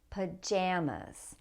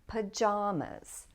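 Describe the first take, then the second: First: The second syllable has the vowel of cat. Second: The second syllable has the vowel of father. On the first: "with the a sound in the second syllable" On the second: "a lot of people say pajamas"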